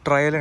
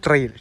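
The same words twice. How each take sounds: First: ട്രയൽ said as "tra-yal", two syllables; wrong pronunciation. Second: ട്രെയിൽ said as "trail", one long vowel; corrected pronunciation. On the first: Real, not acted. (ട്രയൽ എന്ന് തെറ്റായി ഉച്ചരിക്കുന്നു) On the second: Shown as a demonstration. (ട്രെയിൽ എന്ന് ശരിയായി തിരുത്തി പറയുന്നു) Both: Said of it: "ട്രയൽ അല്ല, sorry".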